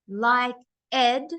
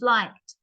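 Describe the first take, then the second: First: The word is said as two syllables. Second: The word is said as one syllable. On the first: The speaker calls it wrong. "That's two syllables. That's not how you pronounce the word" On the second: The speaker calls it right. "it didn't change"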